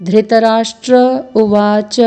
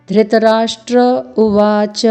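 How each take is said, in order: Both takes have the same delivery.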